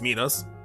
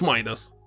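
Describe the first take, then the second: First: The name is pronounced the original Greek way. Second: The name is pronounced the usual English way. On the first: The speaker calls it right. "in original it's Midas" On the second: The speaker calls it wrong. "in English it's Midas"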